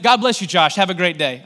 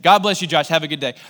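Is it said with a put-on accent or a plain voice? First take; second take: put-on accent; plain voice. First: It is said in a put-on accent. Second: It is said without the put-on accent.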